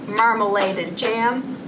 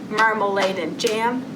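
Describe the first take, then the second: Both takes have the same delivery.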